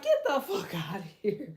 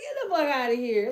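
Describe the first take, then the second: First: Laughing disbelief. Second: Said in the usual way. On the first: Retold or imitated. Disbelief at the old-age death claim.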